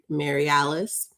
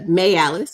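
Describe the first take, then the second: First: The name is said fully, in a plain way. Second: The name is said fast, in a Southern way.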